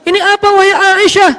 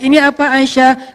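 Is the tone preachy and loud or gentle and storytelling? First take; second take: preachy; gentle. First: It is said in a loud, preachy sermon tone. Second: It is said in a soft, gentle storytelling tone.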